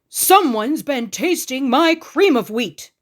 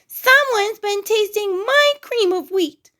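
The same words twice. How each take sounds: First: It is said in a great big voice. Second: It is said in a wee little voice.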